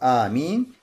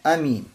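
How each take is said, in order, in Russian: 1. Первая гласная произносится долго, растянуто. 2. Первая гласная остаётся краткой. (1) "Удлинение и сокращение. То есть «амин». «Амин» первый слог" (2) "Или первый слог без удлинения"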